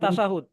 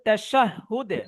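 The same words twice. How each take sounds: First: The word is said with Bengali pronunciation. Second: The word is said with Arabic pronunciation. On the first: "বাংলাতে বলে তাশাহুদ" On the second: "আরবিতে বলা হয় তাশাহুদ"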